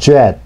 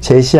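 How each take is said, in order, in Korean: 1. 첫 소리는 입술을 둥글게 내민 J입니다. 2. 첫 소리는 평평한 한국어식 J입니다. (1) "입술을 내밀며 하는 발음" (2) "젯이 아니라"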